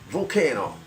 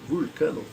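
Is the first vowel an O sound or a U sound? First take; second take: O sound; U sound. First: The first vowel sounds like O. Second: The first vowel sounds like U. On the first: The name is taken to mean volcano. The speaker calls it wrong. "quem é o gringo, o americano, o europeu, fala Volcano" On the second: The name is taken to mean the god of metal. The speaker calls it right. "os latinos pronunciam assim"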